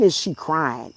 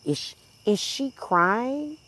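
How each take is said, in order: First: Said in the usual way. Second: Slow, soft, high mocking echo; mocking quote. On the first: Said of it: "The fuck you mean". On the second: Vlogger mimicking chat commenter, slow soft mockery. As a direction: drag it out like a taunt.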